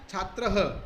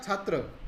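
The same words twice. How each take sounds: First: छात्रः ending in a breathy "-traha"; छात्रः with the visarga sounded as "aha"; visarga pronunciation. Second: Said in the usual way. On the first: Shown as a demonstration. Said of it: "विसर्ग लगने पर क्या बन गया". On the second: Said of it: "Hindi के अंदर यदि मैं बोलता".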